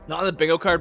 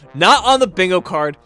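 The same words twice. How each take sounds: First: It is said at a normal, quieter volume. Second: It is said louder than the first time.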